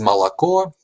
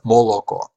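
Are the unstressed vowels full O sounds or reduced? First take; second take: reduced; full. First: The unstressed O vowels are reduced to an A-like sound. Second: Every unstressed vowel keeps a full O sound. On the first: This is the standard pronunciation. "So the standard again is malako" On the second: This is the regional okanye pronunciation. "the Orkanya variety is moloko"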